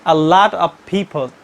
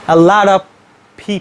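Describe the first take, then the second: First: The T in lot is a clear T. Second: The T in lot sounds like a D. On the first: "most of the non-native speakers pronounce these phrases like" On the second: "But the American people pronounce it"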